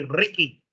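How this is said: The R is said the Spanish way. The speaker calls it wrong. "We say Ricky"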